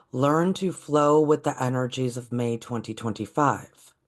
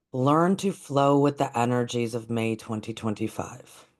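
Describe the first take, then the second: No difference in how they are said.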